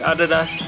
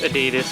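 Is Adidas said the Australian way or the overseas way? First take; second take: Australian; overseas. First: It uses the Australian pronunciation. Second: It uses the overseas pronunciation. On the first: "Here in Australia, you pronounce it" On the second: "overseas it's"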